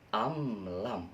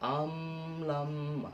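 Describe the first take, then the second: First: The m sound is short and moves on directly. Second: The m sound is held out long. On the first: The speaker calls it right. "tapi am lam langsung" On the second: The speaker calls it wrong. "jangan terlalu lama. Am lam bukan"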